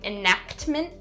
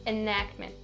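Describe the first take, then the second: First: The k and t sounds are sharply over-enunciated. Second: The k and t sounds are soft but present. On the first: The speaker calls it wrong. "make sure that you're not over enunciating those sounds" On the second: The speaker calls it right. "I still have that k and t sound there, but it's just not as clear"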